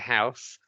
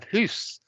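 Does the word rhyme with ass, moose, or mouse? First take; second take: mouse; moose. First: The vowel rhymes with mouse. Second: The vowel rhymes with moose. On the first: It is the present speaker's own usual form. "which is, I think, what I would say" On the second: It is linked today with some Scottish speakers. "does it rhyme with moose? So you have hoose"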